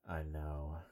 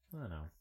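First: It is said in a warm, heartfelt tone. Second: It is said in a casual, nonchalant tone.

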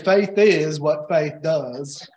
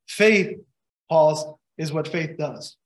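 First: It is said in a put-on character voice. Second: It is said slowly, with a pause after faith. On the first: It sounds like a silly catchphrase. The speaker calls it wrong. "in a Forrest Gump voice" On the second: It sounds like a serious statement. The speaker calls it right. "just read it a little bit slower"

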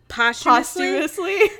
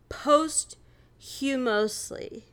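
First: The word begins with a short pos sound. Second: The word begins like the word post. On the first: The speaker calls it right. "instead of posthumously" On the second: The speaker calls it wrong. "she said, posthumously"

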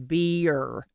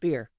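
First: The word is drawn out into two syllables. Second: The word is said as one short syllable. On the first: The speaker is from the American South. "if you're from the South and this area, it's a two syllable word" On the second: The speaker is not from the American South. "and not"

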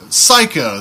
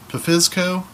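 First: The word begins with an S sound, P silent. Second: The word begins with an audible P sound. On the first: The speaker calls it right. "that's how you pronounce it" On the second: The speaker calls it wrong. "is it Pfizco?"

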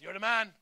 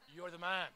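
First: It sounds like friendly, admiring praise. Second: It sounds like a stern, pointed accusation.

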